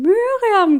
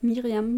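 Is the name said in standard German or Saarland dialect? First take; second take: Saarland dialect; standard German. First: It is said in a Saarland accent. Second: It is said in standard German.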